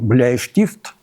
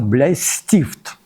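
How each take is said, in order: First: It is said in standard High German, with 'sh'. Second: It is said in the local dialect, with 's'.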